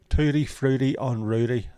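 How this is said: It is said in a Belfast accent. "I said that with a Belfast accent"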